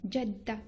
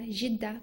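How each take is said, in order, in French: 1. Ça commence par le son du jim arabe. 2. Ça commence par un son J français doux. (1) "mais ça Jedda, Jedda, pas Jidda" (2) "vous utilisez le J, le J comme Jidda"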